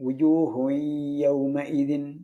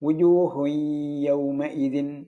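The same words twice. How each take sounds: The two takes are said the same way.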